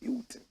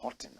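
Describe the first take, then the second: First: The name is said like Hilton. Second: The name is said like Houghton. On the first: "Others say, oh, don't say Houghton, say Hilton" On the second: "I call him Houghton"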